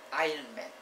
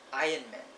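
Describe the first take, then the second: The two takes are said the same way.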